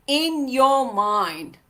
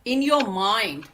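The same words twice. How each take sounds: First: "in your mind" slowed right down, each word weighted; slow emphatic repeat. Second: Said in the usual way. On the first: Shown as a demonstration. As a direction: drive home "your mind" slowly. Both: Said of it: "Barrier is here".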